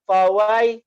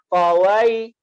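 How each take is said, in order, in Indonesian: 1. Vokal langsung meluncur ke bunyi y. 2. Vokal langsung meluncur ke bunyi y.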